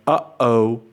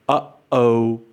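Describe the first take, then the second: No difference in how they are said.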